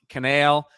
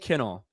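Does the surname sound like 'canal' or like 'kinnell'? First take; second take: canal; kinnell. First: The surname sounds like the word 'canal'. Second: The surname sounds like 'kin-nell'. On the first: The speaker calls it wrong. "It gets mispronounced" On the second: The speaker calls it right. "Ryan Kinnell"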